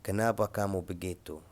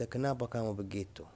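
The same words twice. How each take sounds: First: Said in the usual way. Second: Higher, softer, asking a sad friend kindly; soft caring question to an upset friend; gentle concern. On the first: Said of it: "واحد قدام مثلًا، قدامك زعلان". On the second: Shown as a demonstration. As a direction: softly ask what's wrong. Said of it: "قدامك زعلان، تقول له أنت".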